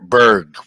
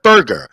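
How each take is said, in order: First: The ending is said as one syllable. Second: The ending is said as two syllables. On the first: The speaker calls it right. "Berg, Berg" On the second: The speaker calls it wrong. "not Burger"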